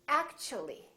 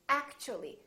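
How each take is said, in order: First: The t is said like ch. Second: The t is said like ch.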